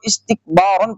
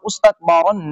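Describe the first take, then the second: First: The first vowel is an 'i' sound. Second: The first vowel is not an 'i' sound. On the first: The speaker calls it right. "اس کو استکبارن پڑھیں گے" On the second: The speaker calls it wrong. "استکبارن نہیں پڑھا جائے گا"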